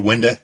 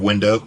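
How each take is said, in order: First: It is said with an Eastern Kentucky pronunciation. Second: It is said with a standard pronunciation. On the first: This is how the speaker actually says it. "I say window" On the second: This is how the speaker does not say it. "instead of window"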